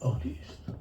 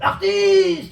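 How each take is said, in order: First: It is said with contempt. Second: It is said with enthusiastic exclamation.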